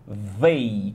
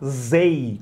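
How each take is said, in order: First: The word starts with a 'th' sound. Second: The word starts with a 'z' sound. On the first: The speaker calls it right. "com o som correto" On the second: The speaker calls it wrong. "zei com Z de zebra"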